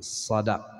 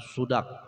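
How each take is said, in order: First: The first vowel is an a sound. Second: The first vowel is a u sound. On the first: The speaker calls it right. "tapi sadak" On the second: The speaker calls it wrong. "bukan sudak"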